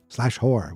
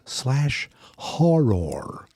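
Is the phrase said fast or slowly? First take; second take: fast; slow. First: The phrase is said quickly, with the words run together. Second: The phrase is said slowly, with each word clear. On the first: The speaker calls it wrong. "I say it fast and it sounds like I'm saying slash horror" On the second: The speaker calls it right. "It's slash horror"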